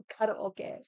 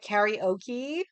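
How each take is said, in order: First: Karaoke said kah-rah-oh-keh, the Japanese way; karaoke, crisp Japanese syllables. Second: Karaoke drawn out slowly as carry-OH-kee; mock the American carry-oh-kee, slowly; slow American karaoke ending in kee. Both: Shown as a demonstration. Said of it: "Not karaoke".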